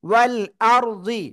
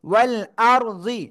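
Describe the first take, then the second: No difference in how they are said.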